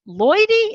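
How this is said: The name is said with a questioning rise. She is unsure who is there. "like she was saying her brother's name with a question mark"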